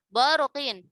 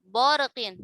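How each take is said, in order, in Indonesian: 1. Suku kata pertama tebal, dengan vokal yang gelap. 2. Suku kata pertama tebal, dengan vokal yang gelap.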